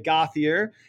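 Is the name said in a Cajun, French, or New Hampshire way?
New Hampshire. The name is said the usual New Hampshire way. This is how locals usually say it. "normally in New Hampshire, people will say Gauthier, and this hurts my heart"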